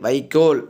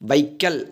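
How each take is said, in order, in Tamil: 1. கடைசி அசையில் நீண்ட 'o' ஒலி உள்ளது. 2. கடைசி அசையில் குறுகிய 'a' ஒலி உள்ளது. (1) "தூய தமிழ் சொல்" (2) "பேச்சு வழக்கு"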